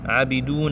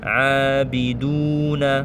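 First: The first vowel is cut short. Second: The first vowel is held long. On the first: The speaker calls it wrong. "Il faut pas faire" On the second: The speaker calls it right. "C'est la même durée"

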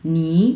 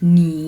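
First: The syllable is said in the second tone. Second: The syllable is said in the third tone. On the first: "2 number tone? নি, নি like this." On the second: "নি শব্দটাতেও 3 number tone"

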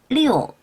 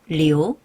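First: The syllable is said with a falling tone. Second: The syllable is said without a falling tone. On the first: It means the number six. "숫자 6은 4성" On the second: It means to flow. "성조는 다르지만 발음은 똑같아요"

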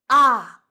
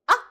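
First: The falling syllable is drawn out long. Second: The falling syllable is clipped very short. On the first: The speaker now understands. "when you mean understand, should be very long" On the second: The speaker agrees. "So it should be very short"

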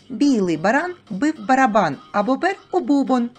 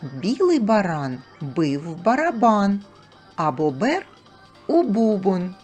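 First: The phrase is spoken at a fast pace. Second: The phrase is spoken at a normal pace.

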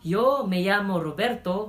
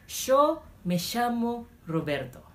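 First: It is said in a plain, neutral Spanish accent. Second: It is said in an Argentinian accent with an 'sh' sound.

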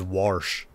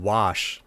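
First: The word has an R sound before 'sh'. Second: The word has no R sound. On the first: The speaker calls it wrong. "He puts like an R in there" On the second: The speaker calls it right. "Instead of saying wash"

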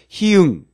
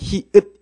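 First: The word ends with an ng sound. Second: The word ends with a t sound. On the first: The speaker calls it wrong. "많은 사람들이 히응 이렇게 발음하게 되는 것" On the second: The speaker calls it right. "특이하게 디귿이 된다는 거. 그래서 얘는 히읗 이렇게 읽어 주셔야"

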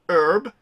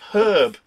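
First: It is said in an American accent, without h. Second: It is said in a British accent, with h.

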